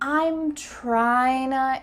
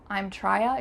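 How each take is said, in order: First: Trying to is reduced with an n sound, tryna. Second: Trying to is reduced without an n sound, trya. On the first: The speaker calls it right. "we've added an N and it just sounds and feels a little bit more natural" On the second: The speaker calls it wrong. "You can't say I'm trya"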